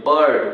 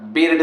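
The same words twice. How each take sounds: First: बर्ड with an "uh" vowel before R. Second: बिर्ड with an "ih" vowel, "bird" as spelt; mispronounced short I. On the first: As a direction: say बर्ड as "burd". (बर्ड में इ नहीं, अ की आवाज़) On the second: (बिर्ड में इ की आवाज़) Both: Shown as a demonstration. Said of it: "बिर्ड नहीं पढ़ते".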